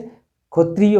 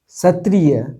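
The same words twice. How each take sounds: First: The word has a Bengali pronunciation. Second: The word has a Hindi pronunciation. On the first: "Bengali में इसे क्षत्रिय बोला जाता है" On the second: "क्षत्रिय बोला जाता है हिंदी में"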